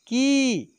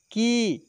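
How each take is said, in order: First: की pushed out higher and long, falling at the end; forceful long vowel. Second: की said gently and briefly, without force; gentle short vowel. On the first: Teacher demonstrating the second of the pair, forceful long की. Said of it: "दूसरे में जोर लगाकर". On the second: Teacher demonstrating the short vowel of the series, gentle short की. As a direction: ease lightly through a short की. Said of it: "एक को हम लोग आराम से बोलेंगे". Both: Shown as a demonstration.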